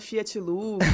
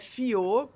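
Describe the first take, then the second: First: The name ends with a clear x sound. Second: The name ends without any x sound. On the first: This is how people at school got the name wrong. The speaker calls it wrong. "já fui [name] Fiat Lux" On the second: This is the French way the family name is said. The speaker calls it right. "mas é Fiot porque é um sobrenome francês"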